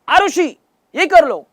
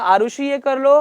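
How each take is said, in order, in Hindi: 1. आवाज़ को ऊंची पिच तक उठाया गया है। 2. आवाज़ सामान्य, नीची पिच में है।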